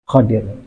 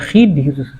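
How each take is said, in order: First: The first vowel is an 'a' sound. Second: The first vowel is an 'i' sound. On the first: The speaker calls it right. "tapi Khadir" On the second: The speaker calls it wrong. "itu bukan Khidir"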